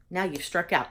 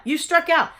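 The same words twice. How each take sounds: First: Said in the usual way. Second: OUT called higher and louder, falling hard; emphatic repeat. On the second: Retold or imitated. Retelling the umpire's verdict, punched louder and higher.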